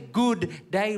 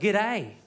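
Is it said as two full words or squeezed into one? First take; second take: two words; one word. First: It is said as two full words, good and day. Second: It is squeezed into one short word, g'day. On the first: The speaker calls it wrong. "don't say good day" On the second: The speaker calls it right. "Hold the O's. Just say g'day"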